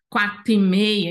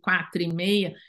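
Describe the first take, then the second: First: The R in 'quatro' is dropped. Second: The R in 'quatro' is pronounced. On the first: "nós comemos o R de alguns sons" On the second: "em vez de quatro e meia"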